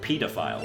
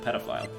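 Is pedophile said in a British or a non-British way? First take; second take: British; non-British. First: It is said with a British pronunciation. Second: It is said with a non-British pronunciation. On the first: "It's like pedophile" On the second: "instead of pedophile"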